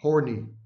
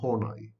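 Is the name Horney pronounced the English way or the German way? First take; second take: English; German. First: The name is pronounced the English way. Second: The name is pronounced the German way. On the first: The speaker calls it wrong. "I have heard professors of psychology, no less, pronouncing her name as" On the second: The speaker calls it right. "her name is Karen Horney. It's a German pronunciation"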